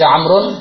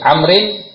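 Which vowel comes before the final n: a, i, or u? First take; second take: u; i. First: The word ends with the sound 'un'. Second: The word ends with the sound 'in'. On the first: "Tidak boleh" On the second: "Tidak boleh"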